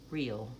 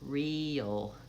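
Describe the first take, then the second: First: The word is said quickly and compactly. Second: The word is said slowly and drawn out. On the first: "And then speed up" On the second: "try that with me slowly"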